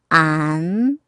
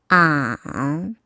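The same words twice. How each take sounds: First: The pitch rises from middle to high. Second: The pitch dips low, then rises.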